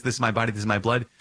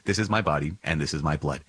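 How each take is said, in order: First: Higher pitch, "blood" rising as a question; raised, querying tune through to "blood"; questioning quote. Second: Settled statement, stepping down to "blood"; falling, conclusive tune ending on "blood"; plain-fact answer. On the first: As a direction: ask it with a lift on "blood". Poses it as a question. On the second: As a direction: answer it firmly, letting "blood" fall away. Answers his own question. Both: Shown as a demonstration.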